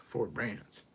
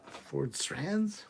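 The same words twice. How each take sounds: First: "Brands" said with a clear b, matter-of-fact; corrected reading. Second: "Ford Strands?" read with an s-t-r start, puzzled; misread word. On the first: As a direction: fix the word and drop the question tone. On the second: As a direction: stumble on "Strands" as if it were a real word. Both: Pretend.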